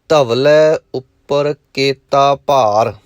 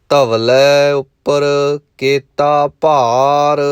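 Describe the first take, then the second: The two takes are said the same way.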